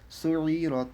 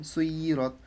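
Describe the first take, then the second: First: "সুই রত" with a throaty ayn; Arabic ayn in "সুই রত"; from the throat. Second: Said in the usual way. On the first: Shown as a demonstration. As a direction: squeeze the throat inside "সুই", then "রত". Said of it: "সুটাতে গলার মধ্যে নিতে হবে". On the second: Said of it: "সিম্পলভাবে পড়লাম".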